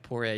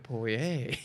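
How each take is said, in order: First: The name is said casually, without emphasis. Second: The name is said with heavy, exaggerated emphasis. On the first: It is not said properly. "if you just say it casually" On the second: It sounds showy or pretentious. "if you go"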